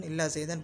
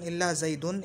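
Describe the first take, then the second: First: ज़ैदन with an "a" before the final n; accusative "-an" ending. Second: ज़ैदुन with a "u" before the final n; nominative "-un" ending. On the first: Teacher shows students the other allowed reading, "-an" ending. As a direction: end ज़ैदन on "-an". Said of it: "पढ़ सकते हैं ना". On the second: Teacher shows students an allowed reading, "-un" ending. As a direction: end ज़ैदुन on "-un". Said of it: "इल्ला ज़ैदन पढ़ सकते हैं ना". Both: Shown as a demonstration.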